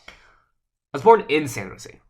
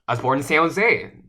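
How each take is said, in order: First: The word in is stressed. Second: The words San Jose are stressed. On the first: The birth was inside the city, not outside. "I'm emphasizing in" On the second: It was this city, not another one. "not San Francisco, not somewhere else, not Fremont"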